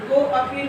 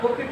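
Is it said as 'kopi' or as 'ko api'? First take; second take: ko api; kopi. First: It is said as two words, ko api. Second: It is said as one word, kopi. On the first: The speaker calls it wrong. "नहीं" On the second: The speaker calls it right. "इस तरह कॉपी पढ़ेंगे"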